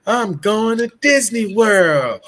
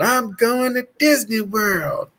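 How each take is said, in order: First: High, slow, over-the-top announcement; hammy stage actor. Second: High, slow, theatrical proclamation; hammy stage actor. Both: Retold or imitated. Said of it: "I started hamming it up".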